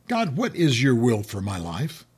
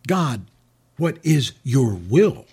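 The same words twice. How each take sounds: First: "for my life" leaned on as the point; stress on MY LIFE. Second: "will" drawn out slowly, rising; slow stress on WILL. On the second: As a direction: linger on "will". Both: Shown as a demonstration. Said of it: "do you see the difference".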